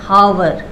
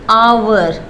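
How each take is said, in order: First: The word starts with an h sound. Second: The word starts with a vowel, no h. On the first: The speaker calls it wrong. "Not" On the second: The speaker calls it right. "आवर में एच silent होता है"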